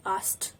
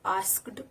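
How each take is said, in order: First: Asked as a short ast; teacher correcting asked; correct pronunciation. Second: Asked slowly as ask-ed; wrong pronunciation. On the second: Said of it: "It's not asked". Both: Shown as a demonstration.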